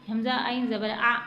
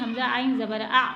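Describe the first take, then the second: Both takes have the same delivery.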